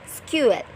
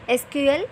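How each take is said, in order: First: It is said as one word, sequel. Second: Each letter is said separately. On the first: "S C Q U E L" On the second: "It can be pronounced as S Q L"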